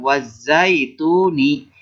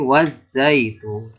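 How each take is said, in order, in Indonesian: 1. Kata itu berakhir dengan vokal tambahan di akhir. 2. Kata itu berakhir pada huruf N, tanpa vokal. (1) "bukan wazaituni" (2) "tapi wazaitun"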